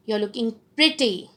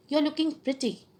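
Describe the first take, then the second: First: Admiring tone, pretty given full weight; sincere compliment. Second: Higher-pitched, half-hearted compliment; mismatched compliment. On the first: Lecturer showing students tone matching words, sincere compliment. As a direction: compliment them as if you mean it. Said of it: "my tone of voice is going with my words". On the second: Lecturer showing students tone against words, unconvincing compliment. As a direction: pay a compliment without sounding like you mean it. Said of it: "my tone of voice is not going with my word". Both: Shown as a demonstration.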